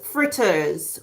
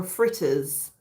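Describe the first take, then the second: First: "fritters" said slowly in standard English; standard pronunciation. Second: "fritters" in a Jamaican accent. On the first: Host showing viewers both ways to say fritters, standard pronunciation. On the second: Host showing viewers how Caribbeans say fritters, Jamaican accent. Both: Shown as a demonstration. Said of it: "if you wanna say it in an accent".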